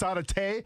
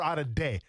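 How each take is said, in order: First: The consonant is a T sound. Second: The consonant is a D sound. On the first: "You can say it with the T" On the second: "say day, because then you respect his homeland"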